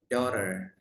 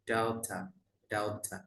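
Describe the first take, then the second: First: American "daughter" with a sounded final r; American pronunciation. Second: British "daughter", crisp t and no final r; British pronunciation. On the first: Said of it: "Kalau American". ("daughter" logat Amerika) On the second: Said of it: "Kalau British ya". ("daughter" logat British) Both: Shown as a demonstration.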